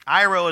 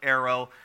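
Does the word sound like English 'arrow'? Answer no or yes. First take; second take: no; yes. First: It does not sound like English arrow. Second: It sounds like the English word arrow. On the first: The speaker calls it right. "Airo is the correct pronunciation" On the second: The speaker calls it wrong. "Some people call it arrow"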